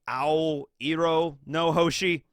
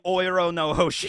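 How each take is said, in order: First: The name begins with an 'ah-oh' sound. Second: The name begins with a single 'oh' sound. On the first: The speaker calls it right. "blue is just A O, it's Ao. So, I guess it would be Ao Iro no Hoshi" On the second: The speaker calls it wrong. "I'm probably not pronouncing Oiro no Hoshi correctly"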